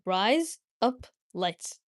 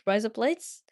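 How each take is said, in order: First: The phrase is said at a normal pace. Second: The phrase is said very fast.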